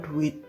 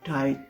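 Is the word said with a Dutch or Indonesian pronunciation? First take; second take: Indonesian; Dutch. First: Said with Indonesian vowels, lips not pushed forward. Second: Said with Dutch vowels, lips pushed forward. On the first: The speaker calls it wrong. "pelafalannya bukan duit" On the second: The speaker calls it right. "tapi duit. Jadi monc moncong nih mulutnya"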